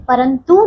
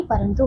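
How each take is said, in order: First: परंतु with a long, stressed "too"; mispronounced word. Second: परंतु with a short, softer "tu"; correct pronunciation. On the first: Teacher shows pupils the wrong word, mispronounced. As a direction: stretch the end of परंतु. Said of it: "नहीं". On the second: Teacher corrects the word for pupils, properly pronounced. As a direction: keep the end of परंतु short. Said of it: "परंतु होता है". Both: Shown as a demonstration.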